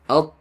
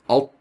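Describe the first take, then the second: First: The lips stay neutral; the tongue back lifts. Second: The lips are rounded for the heavy sound. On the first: The speaker calls it right. "Your lips remain neutral" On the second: The speaker calls it wrong. "It's not alt"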